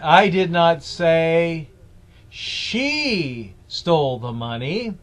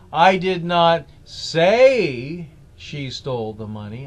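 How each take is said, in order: First: The stress is on "she". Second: The stress is on "say".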